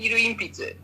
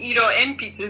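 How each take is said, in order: First: Ibaraki vowels, 'iru inpitsu' with u and i. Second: Standard Tokyo vowels, 'iro enpitsu' with o and e. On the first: "they say" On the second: "instead of saying"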